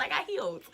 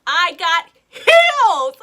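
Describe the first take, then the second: First: Hushed, whispered aside; whispered repeat. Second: Loud, drawn-out comic outburst; exasperated shout. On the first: Explaining to listeners who don't understand, whispered repeat. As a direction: drop to a whisper for comic effect. Repeats it after the shouted take. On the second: Telling friends why she tripped running, exasperated shout. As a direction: shout it slowly for dramatic effect. Dramatic retelling of her fall in heels. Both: Retold or imitated.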